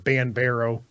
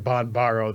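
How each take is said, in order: First: The first syllable sounds like 'ban'. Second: The first syllable sounds like 'bon'. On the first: This follows how the name is spelled. "B A N B A R O" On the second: This is the speaker's own way of saying the name. "the pronunciation I gave it"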